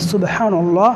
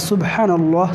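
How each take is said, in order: No difference in how they are said.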